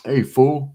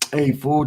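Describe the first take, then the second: First: It is said in a hostile, insulting tone. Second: It is said in a relaxed, friendly tone. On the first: It is an insult that calls for a challenge. "then you're like, hey, whoa, whoa, hold up" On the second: It is a casual greeting between friends. "it's all about the way you say things"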